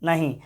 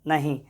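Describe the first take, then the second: No difference in how they are said.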